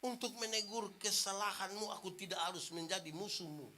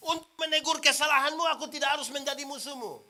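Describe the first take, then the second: First: Lowered, hushed restatement; a softly spoken gentle reminder; soft, quiet repetition. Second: Loud, ringing preacher's declaration; a firm, raised pulpit proclamation; proclaimed maxim. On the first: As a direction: let it sink in, much softer. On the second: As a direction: declare it to the whole church. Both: Shown as a demonstration. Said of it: "marah itu marah".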